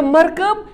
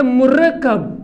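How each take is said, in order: First: मरकब as MAR-kab, rising at the end; pronounced markab. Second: मुरक्कब as mu-RAK-kab, falling at the end; pronounced murakkab. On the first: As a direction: say मरकब with two syllables and one k. (मरकब को "मर-कब" पढ़ें) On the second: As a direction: say मुरक्कब slowly, three syllables with a double k. (मुरक्कब को "मु-रक्-कब" पढ़ें) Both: Shown as a demonstration. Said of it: "तलफ़ुज़ अलग-अलग है".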